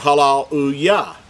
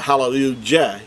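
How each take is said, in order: First: The last syllable starts with a Y sound. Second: The last syllable starts with a J sound. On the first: The speaker calls it right. "everyone pronounces it hallelujah" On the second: The speaker calls it wrong. "not hallelujah. Jah. That's not how we pronounce it"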